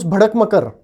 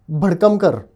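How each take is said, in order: First: The short vowel after k is dropped. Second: The short vowel after d is dropped. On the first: The speaker calls it wrong. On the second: The speaker calls it right.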